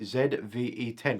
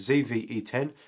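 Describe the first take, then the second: First: The letter Z is pronounced 'zed'. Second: The letter Z is pronounced 'zee'. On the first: The speaker calls it right. "that's a mouthful to say" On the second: The speaker calls it wrong. "We'll pronounce it the wrong way"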